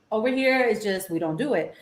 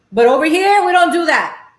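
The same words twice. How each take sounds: First: Muttered aside. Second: Higher and louder, firm and proud; loud insistence. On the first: Repeating the point to viewers, softly muttered. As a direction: drop it to a mumble to yourself. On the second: Telling Texan viewers how LA does it, loud and proud. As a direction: declare it with a raised voice. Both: Real, not acted. Ranting against Tex-Mex, then muttering.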